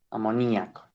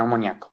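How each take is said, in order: First: "Amoníaco" with the stress on the í. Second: "amoníaco" said as a-mo-NIA-co, stress on the A; mispronounced without accented I. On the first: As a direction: say "Amoníaco" in five syllables, leaning on NÍ. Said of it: "con acento en la I". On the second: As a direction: run the i into the a in "amoníaco": amoniáco. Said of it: "Por favor, no digan amoníaco". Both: Shown as a demonstration.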